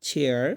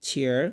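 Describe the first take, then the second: Both takes have the same delivery.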